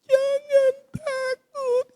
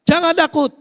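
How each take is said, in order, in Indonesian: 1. Diucapkan dengan nada seram. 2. Diucapkan dengan nada marah. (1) "dengan agak horor" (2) "dengan intonasi marah"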